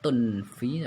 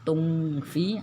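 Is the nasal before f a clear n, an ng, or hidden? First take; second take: clear n; ng. First: A clear n sound is heard before the f. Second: An ng sound is heard before the f. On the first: "Samar aslinya kan tunfi" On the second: "bukan ng ya"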